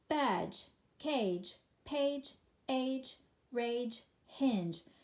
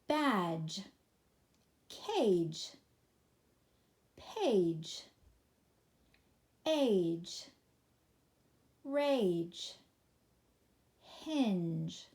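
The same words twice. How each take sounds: First: The list is read at top speed. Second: The list is read at a slow pace.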